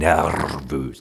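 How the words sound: It is said in an imitated regional accent.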